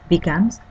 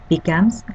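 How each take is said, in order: Both takes have the same delivery.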